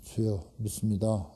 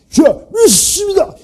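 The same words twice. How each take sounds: First: It is said softly, without force. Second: It is said loudly, with strong force.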